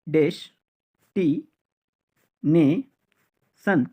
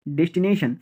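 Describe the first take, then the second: First: destination very slowly as des-ti-ne-son; long pauses between each syllable of destination. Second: Said in the usual way. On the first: Shown as a demonstration. Teacher drilling learners, destination in very slow separate syllables.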